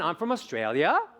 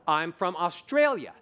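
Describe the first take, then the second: First: The pitch slides smoothly upward at the end. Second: The pitch rises in separate steps between notes. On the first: It sounds like a question. The speaker calls it wrong. "Which is different than" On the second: It sounds like a confident statement. The speaker calls it right. "You just have to have note, note, note, note"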